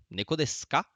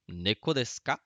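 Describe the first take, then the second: First: Neko desu ka? rising on ka; rising question tune. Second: Said in the usual way. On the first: Shown as a demonstration. Teacher modelling a question with rising intonation. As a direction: lift the ka into a question. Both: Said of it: "Uma pergunta".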